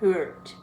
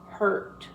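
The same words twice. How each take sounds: First: A clear 'u' vowel is sounded in the word. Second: No clear 'u' vowel is sounded in the word. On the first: The speaker calls it wrong. "It's not hurt" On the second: The speaker calls it right. "you do not pronounce the U"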